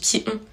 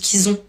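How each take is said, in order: First: The two words are said without a z link. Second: A z sound links the two words. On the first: The speaker calls it right. "alors qu'on dit qui ont" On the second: The speaker calls it wrong. "j'ai un problème avec les liaisons... je dis qu'ils ont"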